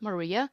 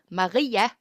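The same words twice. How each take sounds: First: The name is pronounced the English way. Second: The name is pronounced the Danish way. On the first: "the English version is Maria" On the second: "the Danish version is Maria"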